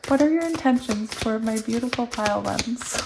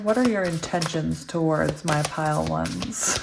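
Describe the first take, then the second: First: It is said in her own natural voice. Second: It is said in a scary parent voice.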